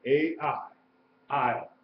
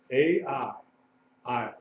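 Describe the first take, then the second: No difference in how they are said.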